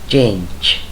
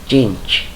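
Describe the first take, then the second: Both takes have the same delivery.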